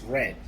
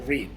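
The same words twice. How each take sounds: First: It is pronounced as the past-tense form. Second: It is pronounced as the present-tense form. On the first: The action already happened. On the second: The action happens now.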